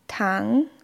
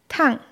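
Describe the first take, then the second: First: The pitch rises from a middle level. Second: The pitch drops sharply from high. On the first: It means sugar. "Beim zweiten Ton steigt die Stimme von einer mittleren Tonhöhe an" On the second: It means hot. "Beim vierten Ton fällt die Stimme abrupt von einem hohen Niveau ab"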